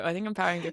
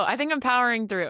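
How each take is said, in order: First: Said in the usual way. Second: "think" raised and stressed; emphatic. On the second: Shown as a demonstration. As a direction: lean on "think" up high. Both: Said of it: "repeat of same words".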